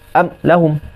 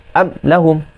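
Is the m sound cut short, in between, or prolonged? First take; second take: cut short; cut short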